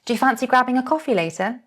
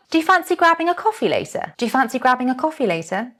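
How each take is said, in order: First: Light, easy and fast; relaxed, casual. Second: Lively model line. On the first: Teacher modelling a relaxed invitation for learners, easygoing. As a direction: say it nice and relaxed. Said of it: "nice and relaxed?". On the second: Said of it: "Next one". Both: Shown as a demonstration.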